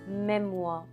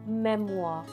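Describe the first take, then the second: First: The final R sound is dropped. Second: The same.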